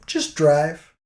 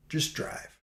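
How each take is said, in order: First: Said in the usual way. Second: Whispered "Just drive," under the breath. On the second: Shown as a demonstration. Narrator repeats advice in a whisper. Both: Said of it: "don't try to talk him into it".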